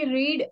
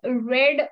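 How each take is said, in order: First: The vowel is long, like 'reed'. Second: The vowel is short, like 'red'. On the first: It is the present tense. The speaker calls it wrong. "तुम्हाला वाटेल की हे रीडच आहे" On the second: It is the past tense. The speaker calls it right. "रेड असा याचा उच्चार करू शकतात"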